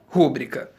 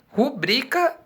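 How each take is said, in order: First: The stress is on the first syllable. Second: The stress is on the second syllable. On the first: The speaker calls it wrong. "e não rúbrica" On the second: The speaker calls it right. "a maneira correta de pronunciarmos é rubrica"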